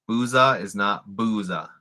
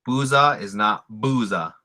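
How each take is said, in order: Both takes have the same delivery.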